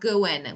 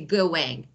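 First: The word ends without a final g sound. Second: The word ends with a full final g sound. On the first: The speaker calls it right. "It sounds like going" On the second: The speaker calls it wrong. "We don't say going"

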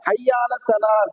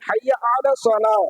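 First: The word 'ala' is slurred into the previous word. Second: The word 'ala' is pronounced distinctly. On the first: The speaker calls it wrong. "இந்த அலாவை பெரும்பாலும் யாரும் என்ன செய்ய மாட்டாங்கன்னா உச்சரிக்க மாட்டாங்க" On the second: The speaker calls it right. "அலா அப்படிங்கிற வார்த்தையே சேர்த்துதான் நம்ம படிக்கணும்"

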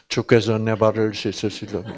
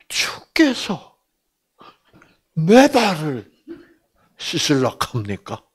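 First: It is read plainly, without expression. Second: It is read with strong, incredulous expression.

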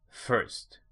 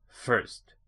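The two takes are said the same way.

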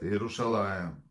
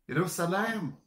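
First: The middle consonant is a 'sh' sound. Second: The middle consonant is an 's' sound. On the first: This is the original Hebrew form of the city name. The speaker calls it right. "как город ваш называется?" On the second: This is how the Greeks, who could not say 'sh', said it. The speaker calls it wrong. "они «ше» не выговаривали"

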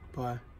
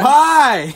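First: It is said in a glum, sad way. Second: It is said in a happier, brighter way.

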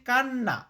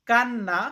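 The two takes are said the same way.

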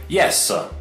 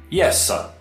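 No difference in how they are said.

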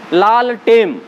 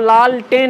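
First: The second word ends with an m sound. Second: The second word ends with an n sound. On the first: The speaker calls it wrong. "लाल टेम नहीं है" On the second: The speaker calls it right. "वो लाल टेन है"

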